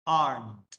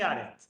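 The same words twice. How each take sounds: First: Aren't said "arnt", one syllable with a clear n; aren't as the teacher models it, with the n sounded; correct pronunciation. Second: Aren't said wrongly as "aret", with no n sound; aren't without its n, the learner's mistake; wrong pronunciation. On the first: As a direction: give aren't its proper n, "arnt". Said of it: "la pronunciación es aren't". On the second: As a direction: drop the n in aren't, the way learners misread it. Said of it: "no se dice aren't". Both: Shown as a demonstration.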